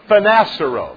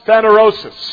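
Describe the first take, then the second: First: The word ends with the sounds 'seros'. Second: The word ends with the sounds 'rosis'. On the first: The speaker calls it wrong. "I mispronounce it" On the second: The speaker calls it right. "another Greek word that's actually a correct one"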